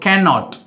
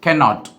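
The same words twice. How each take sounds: First: It is said as two separate full words. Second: The same.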